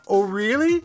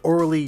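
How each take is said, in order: First: It is said as two words, "oh really". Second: It is said as one word, "or-lee". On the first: "as intended" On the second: "as written"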